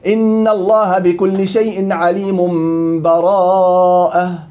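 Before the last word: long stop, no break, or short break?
no break. The words run straight into the last word, no break. "وصل الجميع الأسهل"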